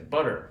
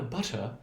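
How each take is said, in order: First: The middle consonant is a quick D-like tap. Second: The middle consonant is a clear, crisp T. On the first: "an American person is going to say butter ... and you hear the D" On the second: "a very proper, uh, you know, British native speaker is going to say"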